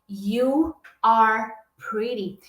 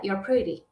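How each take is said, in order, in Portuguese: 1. 'You are' é dito como duas palavras completas. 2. 'You are' é comprimido em uma única sílaba. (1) "Ao invés de você escutar uma frase assim" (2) "Geralmente o que você escuta é"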